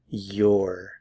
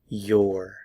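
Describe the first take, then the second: First: It is contracted into one syllable. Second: The same.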